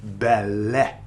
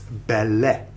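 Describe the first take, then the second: Both takes have the same delivery.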